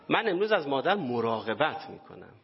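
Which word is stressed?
مراقبت. The stress falls on the word for care.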